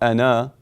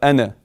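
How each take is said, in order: First: The final vowel is drawn out longer. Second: The final vowel is held only briefly. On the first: The speaker calls it wrong. "not two harakat" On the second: The speaker calls it right. "One haraka"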